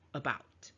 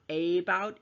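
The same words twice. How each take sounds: First: The first vowel is nearly silent. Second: The first vowel is pronounced fully. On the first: The speaker calls it right. "it's about, almost silent" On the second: The speaker calls it wrong. "it's not about"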